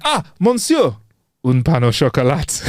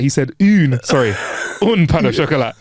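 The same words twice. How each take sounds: First: Proud hammed-up French; mock French accent. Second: "un pain au chocolat" said with un, not une; French correction. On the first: Waiter answering in a mock French accent. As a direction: nail the French like a local. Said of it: "and then he went". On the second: Retold or imitated. French people correcting him on un pain au chocolat. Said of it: "all the French people are gonna be like".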